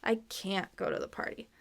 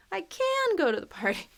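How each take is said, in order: First: Quick stop on CAN'T, rest even and softer; unlifted can't. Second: CAN leaps high and stretches out; stressed can. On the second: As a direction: punch CAN up high, then fall away. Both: Shown as a demonstration. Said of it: "down to that intonation or stress".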